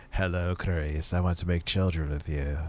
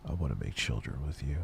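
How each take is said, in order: First: Mock creepy reading. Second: Low, soft creepy murmur; mock creepy repeat. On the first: Reading a donation message mockingly. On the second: Repeating the donor's line, low and hushed. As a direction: breathe it like a creep.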